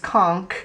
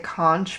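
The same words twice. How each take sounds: First: The word ends with a 'k' sound. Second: The word ends with a 'ch' sound. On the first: The speaker calls it right. "which is conch. The C H makes a K sound" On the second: The speaker calls it wrong. "I always want to say conch, but I know that's wrong"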